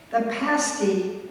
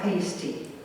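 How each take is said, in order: First: The first vowel sounds like the one in 'past'. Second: The first vowel differs from the one in 'past'. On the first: It names the meat pie eaten by miners. The speaker calls it right. "as in the word past" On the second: It names an item worn by exotic dancers. The speaker calls it wrong. "mispronounce the word"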